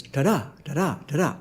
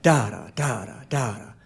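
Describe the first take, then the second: First: "ta-da" with DA stressed and TA light; soft "ta-DA", quick first syllable into a weighty second; light-heavy stress. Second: "da-da" with the first DA stressed; low, soft "DA-da", second syllable dropping away; heavy-light stress. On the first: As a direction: iamb beat on "ta-da", landing on "da". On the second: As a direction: trochee beat on "da-da", first one long. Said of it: "heavy light, heavy light". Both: Shown as a demonstration.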